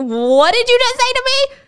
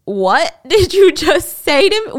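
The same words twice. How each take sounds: First: Much higher, louder incredulous repeat; Sarah repeats it, hurt and indignant; outraged disbelief. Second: Slow, louder, higher stunned demand; Sarah can't believe what she heard; shocked disbelief. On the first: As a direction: push the outrage into a near-shriek. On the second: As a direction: let the outrage build slowly. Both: Retold or imitated. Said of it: "Sarah is taking this in like".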